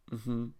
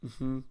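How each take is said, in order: Both takes have the same delivery.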